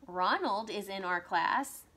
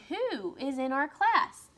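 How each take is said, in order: First: Said in the usual way. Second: Who is in our class? higher and louder, class rising and held; eager rising question; question rise. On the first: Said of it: "that's a telling sentence". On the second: Shown as a demonstration. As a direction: lift the voice on class. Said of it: "But this is saying".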